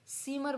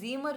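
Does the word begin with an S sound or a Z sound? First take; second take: S sound; Z sound. First: The word begins with an S sound. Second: The word begins with a Z sound. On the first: The speaker calls it right. "सीमर बोलेंगे" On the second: The speaker calls it wrong. "जीमर नहीं बोलेंगे"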